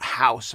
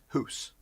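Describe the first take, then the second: First: It is said with an American accent. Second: It is said with a Canadian accent.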